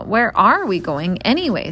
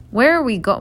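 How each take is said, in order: First: "are" given the main emphasis; stress on are. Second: Said in the usual way. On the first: A narrator's reading. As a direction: lean on "are" in the question. Reader restarts line, stressing are.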